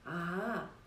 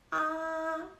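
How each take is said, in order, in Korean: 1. 음이 내려갔다가 올라가요. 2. 음이 평평하게 길게 유지돼요. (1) "내려가다가 올라가는 소리" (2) "평평하게 길게 소리를 빼주시면 됩니다"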